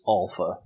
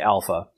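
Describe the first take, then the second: First: Alpha is said with Greek vowel sounds. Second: Alpha is said with ordinary English vowel sounds. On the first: "correct Greek pronunciation is Alpha" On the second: "So I'm going to say Alpha"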